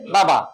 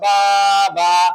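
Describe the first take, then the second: First: The vowels are kept short. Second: The vowels are drawn out long. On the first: The speaker calls it right. "এটা শুদ্ধ হবে কেমনে?" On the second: The speaker calls it wrong. "টান হইল, অশুদ্ধ হইল"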